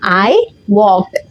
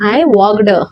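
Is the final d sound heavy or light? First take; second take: light; heavy. First: The ending is said with a light, quiet d. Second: The ending is said with a heavy, separate d. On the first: The speaker calls it right. "किती silently मी ED वापरते आहे" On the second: The speaker calls it wrong. "कोण कोण असं म्हणतात"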